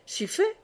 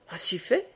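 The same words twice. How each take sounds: First: "si fait" jumps much higher, a bright cry; insistent high-pitched "si fait"; exclaimed high. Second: Said in the usual way. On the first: A narrator's reading. Bruno insisting to Aubry that he comes along, high exclamation. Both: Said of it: "s'écria Bruno".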